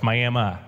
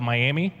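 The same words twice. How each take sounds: First: It is said the way locals pronounce it. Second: It is said the way outsiders pronounce it. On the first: This is how people in the town say it. The speaker calls it right. "No, it's Miami" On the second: A visitor is guessing the town's name. The speaker calls it wrong. "someone coming to Oklahoma and saying, what's this town called"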